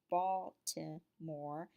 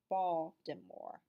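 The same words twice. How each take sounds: First: It is said the way outsiders say it. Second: It is said the way city locals say it. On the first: The speaker is not from the city. "someone outside Baltimore may say" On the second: The speaker is from the city. "people within Baltimore might pronounce it"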